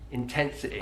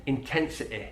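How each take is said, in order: No difference in how they are said.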